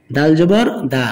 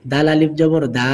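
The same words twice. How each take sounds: First: Final দা with a short, quick vowel. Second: Final দা with a long held vowel; one-alif stretch. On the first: Teacher showing learners the quick reading, short final দা. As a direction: cut the last দা short. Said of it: "হরকতের উচ্চারণ তাড়াতাড়ি করতে হয়". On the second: Teacher showing learners the stretch, long final দা. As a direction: draw out the last দা. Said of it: "এখানে এক আলিফ টান". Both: Shown as a demonstration.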